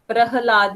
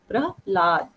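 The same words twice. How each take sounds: First: The h sound is pronounced fully as a syllable. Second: The h sound is reduced, not a full syllable. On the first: The speaker calls it wrong. "प्रहलाद नहीं बोल रहे हम" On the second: The speaker calls it right. "यहाँ पे ह का sound जो है वो पूरा नहीं आ रहा है"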